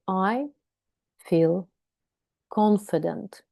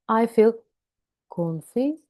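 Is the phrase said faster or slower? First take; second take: slower; faster. First: It is said slowly with pauses. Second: It is said quickly with pauses. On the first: "Then record it with breaks" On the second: "a little bit faster, but with breaks"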